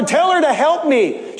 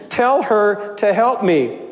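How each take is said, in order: First: "tell her to help me" said as a command; bossy demand. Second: Said in the usual way. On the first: Shown as a demonstration. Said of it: "not asking for help". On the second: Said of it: "Instead of asking for help".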